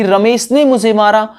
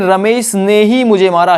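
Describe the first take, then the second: First: Said in the usual way. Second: ही pressed firmly; stress on ही. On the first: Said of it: "मैं ये भी कह सकता था". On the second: Shown as a demonstration. Teacher shows students how ही adds stress, firm. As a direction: land firmly on ही. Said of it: "ही word ने जोर दे दिया".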